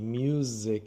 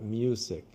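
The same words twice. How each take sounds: First: The middle consonant is a buzzing z sound. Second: The middle consonant is a hissing s sound. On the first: The speaker calls it right. "Z sound. It should be music" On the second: The speaker calls it wrong. "and not music"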